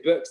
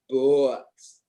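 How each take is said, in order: First: It has a short Scottish vowel. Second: It has a long drawn-out American vowel.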